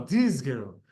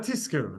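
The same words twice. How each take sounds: First: "Tizkeru" with a clearly buzzed z; "Tizkeru" with z, never s; corrected pronunciation. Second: "tizkeru" with the z hissed as s; unvoiced s before the k in "tizkeru"; mistaken pronunciation. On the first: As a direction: hold the voiced z in "Tizkeru" before the k. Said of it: "No, no, no". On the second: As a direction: say "tizkeru" as "tiskeru". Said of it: "Not tizkeru". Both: Shown as a demonstration.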